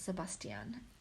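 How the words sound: The name is said with a German pronunciation. The speaker calls it wrong. "in German, it's Sebastian"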